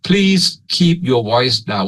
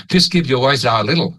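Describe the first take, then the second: First: Slow, clearly separated words in Thai-accented English. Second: Quick, linked American-style English; American accent. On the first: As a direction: pronounce each word distinctly, Thai-style English. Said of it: "สำเนียง Eng- English Thailand เลยนะครับ". (พูดอังกฤษสำเนียงไทย ชัดๆ ทีละคำ) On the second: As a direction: say it like an American native speaker. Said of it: "ถ้าเป็นฝรั่งก็จะว่า ... ออกเสียงแบบอเมริกัน". (สำเนียงอเมริกันแบบฝรั่ง) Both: Shown as a demonstration.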